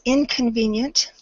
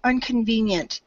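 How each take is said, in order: First: The first syllable is said with a short 'in' sound. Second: The first syllable is said with an 'un' sound. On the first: The speaker calls it right. "it's a short I sound, so we're going to say I instead of uh" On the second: The speaker calls it wrong. "I think I heard the word inconvenient"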